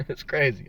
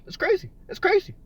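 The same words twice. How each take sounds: First: Said in the usual way. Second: High squeaky it's crazy; squeaky exclaim. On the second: Real, not acted. To Pat in chat, high squeaky disbelief.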